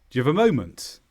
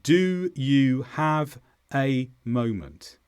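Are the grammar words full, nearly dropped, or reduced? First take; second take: nearly dropped; full. First: Very fast; the small words are nearly dropped. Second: Slow, with every small word fully pronounced. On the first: The speaker calls it right. "at full speed, it would sound more like this" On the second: The speaker calls it wrong. "Let's say it slowly, first of all"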